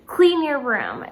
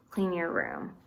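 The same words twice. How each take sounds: First: Firm, slow, louder order; command. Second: Said in the usual way. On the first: Shown as a demonstration. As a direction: say it like a parent giving an order. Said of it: "That is someone giving a command". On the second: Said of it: "which is asking you to".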